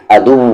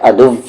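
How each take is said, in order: First: अदुव with lips kept round on व; right way. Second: The teeth-on-lip व the teacher warns against; wrong way. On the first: Teacher gives students the correct round-lipped व. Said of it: "lips round ही रहेगा". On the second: Teacher shows students the mistake, a teeth-on-lip व. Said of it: "अदुव, ऐसे नहीं". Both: Shown as a demonstration.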